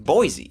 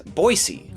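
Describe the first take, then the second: First: It is said the way outsiders say it. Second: It is said the way residents say it. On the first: The speaker is not from the town. The speaker calls it wrong. "you likely call this town Boise" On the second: The speaker is from the town. The speaker calls it right. "the locals know it as Boise"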